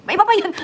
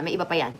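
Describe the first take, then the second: First: Much higher and louder, teasing yell; loud playful shout. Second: Dropped low and soft, almost to herself; soft aside. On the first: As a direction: burst out loud to tease the viewers. (malakas na pasigaw na biro) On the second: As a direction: tuck it away quietly, lower and softer. (pabulong na mahina) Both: Shown as a demonstration. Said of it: "said softly, then shouted".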